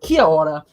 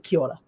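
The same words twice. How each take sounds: First: The greeting is said slowly, every syllable separate. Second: The greeting is said quickly, syllables run together. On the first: "So you think kia ora" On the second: "because they speak really quickly"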